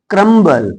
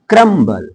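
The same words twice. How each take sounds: The two takes are said the same way.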